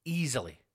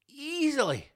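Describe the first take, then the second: First: Said in the usual way. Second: Easily in a high, put-on squeak; a falsetto easily; high mock voice. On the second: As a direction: squeak easily with smug glee.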